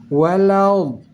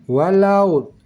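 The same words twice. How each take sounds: Both takes have the same delivery.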